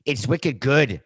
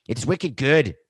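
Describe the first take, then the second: First: A light, hammed-up Boston accent on wicked good; a mock Boston accent, louder and higher. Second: Put-on a second weak stab at a Boston accent, wicked good; a half-hearted Boston accent, higher and louder. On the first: Podcaster tries a Boston accent like [name], lightly done. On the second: Host retries a Boston accent for the listeners, mock. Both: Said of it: "trying to have a Boston accent".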